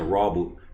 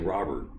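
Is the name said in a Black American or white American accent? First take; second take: Black American; white American. First: The name is said in a Black American accent. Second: The name is said in a white American accent.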